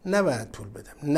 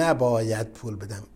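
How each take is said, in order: First: نباید پول بدم voiced as the rich man's inner thought, rising at the end like a question; questioning rise. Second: نباید پول بدم repeated lower, settling down as a final verdict; firm falling close. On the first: Preacher voicing the dying millionaire's thought, rising tune. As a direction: let نباید پول بدم lift upward, half asking. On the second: Retold or imitated. Preacher restating the miser's conclusion, low falling tune. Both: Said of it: "چون هنوز امیدی هست که نمیرم".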